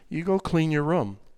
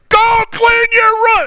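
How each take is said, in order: First: It sounds calm and controlled. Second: It sounds angry and explosive.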